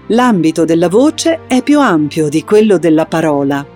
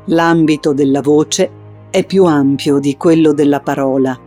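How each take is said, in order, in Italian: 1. La voce è su un tono alto per tutto il tempo. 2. La voce è su un tono grave per tutto il tempo. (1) "poi alto, senza andare in falsetto" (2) "insistendo prima su un tono grave"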